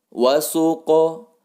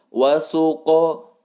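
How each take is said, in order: The two takes are said the same way.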